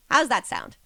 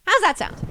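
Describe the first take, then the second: First: Said in the usual way. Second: Higher, louder, eager ask; excited. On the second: Shown as a demonstration. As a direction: pump up the question. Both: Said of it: "repeated with more energy".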